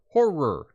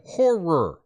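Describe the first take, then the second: First: It is said carefully with two clear syllables. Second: The same.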